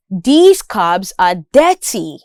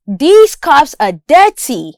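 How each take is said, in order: First: Cups said as "cubs", with a voiced B; B sound. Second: Cups with an unvoiced P and hissed S; P sound. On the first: Listening practice for learners, cups voiced as cubs. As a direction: turn the P of cups into a buzzing "bz". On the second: Listening practice for learners, clear P in cups. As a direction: end cups on a crisp "ps". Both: Shown as a demonstration. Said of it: "listening practice with respect to the consonant sounds".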